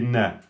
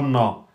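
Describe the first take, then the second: First: The sound is light and thin. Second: The sound is heavy and thick. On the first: The speaker calls it right. "on prononce bien le na aminci" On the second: The speaker calls it wrong. "C'est pas na"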